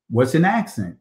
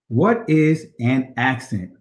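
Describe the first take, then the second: First: Said in the usual way. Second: Slow, spelled-out question; slow, emphatic. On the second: Real, not acted. Teacher repeating a key question to the class, slow and emphatic. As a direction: give each word its own space.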